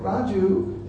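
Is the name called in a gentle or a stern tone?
gentle. The name is said in a gentle, affectionate tone. The caller has something loving to say. "He'd address you very nicely"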